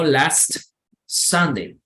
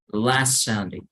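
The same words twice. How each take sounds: First: There is a break between the two words. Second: The two words flow together without a break. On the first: The speaker calls it wrong. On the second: The speaker calls it right.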